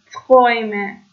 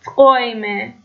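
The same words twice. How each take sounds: First: تقویمه with a clear oy, falling; German äu as oy. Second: تقویمه with oy and a rising end; German äu as oy. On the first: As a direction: repeat تقویمه with oy. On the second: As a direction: say تقویمه with a clear oy. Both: Shown as a demonstration. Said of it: "صدای اوی".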